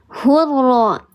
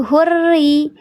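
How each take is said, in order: First: The word ends with an a vowel. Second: The word ends with an i vowel. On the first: The speaker calls it wrong. "dibacanya bukan hurra" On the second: The speaker calls it right. "huruf ra di sini kasra"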